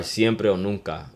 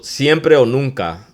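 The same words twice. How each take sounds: First: Said in the usual way. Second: Siempre stressed, said slowly and a bit higher; emphatic amplifier. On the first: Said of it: "and then the amplifier". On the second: Shown as a demonstration. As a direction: lean on Siempre o nunca, slow. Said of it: "the amplifier".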